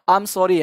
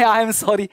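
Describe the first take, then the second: First: It is said in a sad, regretful tone. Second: It is said with a laugh. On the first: The speaker truly feels bad about what happened. The speaker calls it right. "उस वे में बोलना है कि जिसमें आपको हल्का सा feel हो कि ... थोड़ा सा दुख फील हो रहा है" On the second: The speaker does not really feel bad. The speaker calls it wrong. "आपको सॉरी कहते वक्त हंसे है आई एम सॉरी, ऐसा नहीं बोलना है।"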